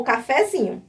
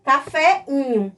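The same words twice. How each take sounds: First: "cafezinho" joined smoothly by a z; "cafezinho" in its usual flowing form, z sounded; harmonised linked form. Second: "caféinho" as two vowels meeting, no linking consonant; unlinked awkward form. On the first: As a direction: say "cafezinho" as one word with the linking z. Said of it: "ela harmonizou". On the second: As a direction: split "caféinho" into café-inho. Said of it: "Leiam, caféinho ia ficar". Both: Shown as a demonstration.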